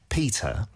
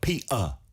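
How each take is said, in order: First: It is said in a British accent, t pronounced. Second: It is said in working-class British, t swallowed. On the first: "영국식으로" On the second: "서민 영국식 영어는 그 티를 먹어요"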